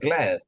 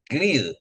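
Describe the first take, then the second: First: The vowel sounds like the a in 'lad'. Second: The vowel sounds like the i in 'lid'. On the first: The word conveys the idea of being happy. The speaker calls it right. "pero ya no es glad" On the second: The word no longer conveys the idea of being happy. The speaker calls it wrong. "Todavía puedo decir glid, pero ya no es glad"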